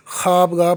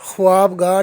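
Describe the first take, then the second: First: ख्वाबगाह said as khaabgaah, the v silent; ख्वाबगाह read khaabgaah; correct pronunciation. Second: ख्वाबगाह said as khuwaabgaah, the v sounded; ख्वाबगाह voiced with the v, the wrong way; wrong pronunciation. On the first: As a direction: drop the v in ख्वाबगाह: khaab-gaah. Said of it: "ख्वाबगाह पढ़ेंगे". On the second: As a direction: sound the v in ख्वाबगाह: khu-waab-gaah. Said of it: "ख्वाबगाह नहीं पढ़ेंगे". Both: Shown as a demonstration.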